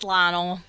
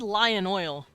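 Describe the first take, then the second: First: The two words run together into one word. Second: Two separate words, lion and oil, are said. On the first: The speaker calls it right. "It's how you say it in Arkansas" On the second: The speaker calls it wrong. "If you said lion oil, you're fucking lying"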